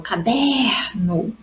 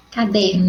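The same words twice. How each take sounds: First: "caderno" with a long, drawn-out DER; stress on the DER of "caderno". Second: Said in the usual way. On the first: Shown as a demonstration. Teacher shows the class where the accentless word is strong, stressing DER in "caderno". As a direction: stretch out the middle syllable DER in "caderno". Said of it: "o der é mais forte". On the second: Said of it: "mas quando eu falo caderno".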